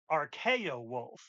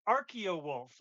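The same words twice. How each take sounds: First: The first part sounds like 'archaic'. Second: The first part does not sound like 'archaic'. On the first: The speaker calls it wrong. "the incorrect one is soft R, hard K, o wolf" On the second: The speaker calls it right. "Practiced it all day, hoping I would get it right"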